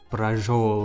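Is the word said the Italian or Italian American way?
Italian American. It sounds like an Italian American pronunciation. "Italian Americans pronounce it like braciole"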